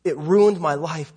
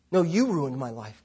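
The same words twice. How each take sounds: First: Said in the usual way. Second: "you" lifted in pitch, the rest falling away softer; stress on YOU. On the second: A narrator's reading. Tenth grade girl turns the blame on God, stress on YOU. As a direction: lean on "you" with a rise, then drop quietly.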